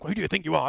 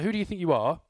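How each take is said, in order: First: It sounds strong and accusing. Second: It sounds gentle and thoughtful.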